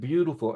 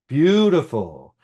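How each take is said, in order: First: The word is said softly. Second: The word is said loudly.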